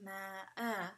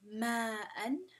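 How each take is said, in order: First: The word ends with a lengthened vowel, no n. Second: The word ends with a short vowel and n. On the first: "you're going to lengthen it twice" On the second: "ma'an would become ma'a"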